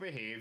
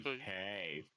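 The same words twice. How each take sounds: First: It is said in an Irish accent. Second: It is said in an Austin Powers voice.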